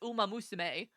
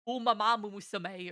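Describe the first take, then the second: First: The word is said with five syllables. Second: The word is said with an extra syllable. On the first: The speaker calls it right. "I know that it's umamusume" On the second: The speaker calls it wrong. "my brain wants to go like umamamusume or something like that, and it's incorrect"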